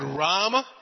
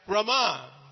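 First: The first vowel is long, the last short. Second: The first vowel is short, the last long. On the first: It names Lord Rama. "Long A first, last A short" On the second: It names the goddess of fortune. "first A is short, last A is long"

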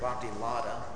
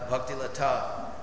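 First: The middle consonant of 'lata' sounds like d. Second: The middle consonant of 'lata' sounds like t. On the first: This is how Americans say it. "which in America is a bhakti lada" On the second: This is the original Sanskrit form. "the Sanskrit word is the bhakti lata"

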